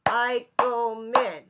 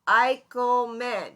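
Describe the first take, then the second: First: Eichelman drawn out slowly in three beats, Ei-chel-man; syllables. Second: Eichelman said slowly, syllable by syllable. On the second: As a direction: clap out Eichelman in three slow beats. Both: Shown as a demonstration. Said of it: "is three syllables".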